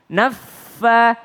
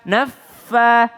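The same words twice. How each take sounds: The two takes are said the same way.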